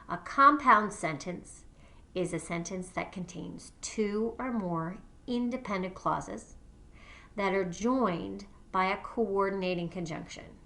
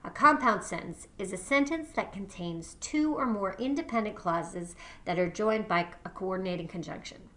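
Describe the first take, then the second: First: It is read more slowly. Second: It is read at a normal pace.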